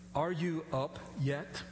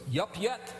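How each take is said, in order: First: Each word is said separately and in full. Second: The words are run together into two syllables. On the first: "they wouldn't say" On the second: "It was"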